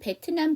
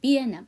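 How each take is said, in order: First: The t is said as a full syllable. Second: The t sound is dropped entirely. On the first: The speaker calls it wrong. "영어 발음은 베트남이 아니에요" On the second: The speaker calls it right. "T 발음은 받침으로 넣던가 아예 하시지 말고"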